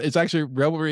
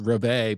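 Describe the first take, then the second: First: It is said like 'revelry', with an L sound. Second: It is said like 'revey', with no L sound. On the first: This is how people in America commonly say it. The speaker calls it wrong. "I don't think anybody in America pronounces it that way" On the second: This is the officially correct way to say it. The speaker calls it right. "is actually pronounced revey"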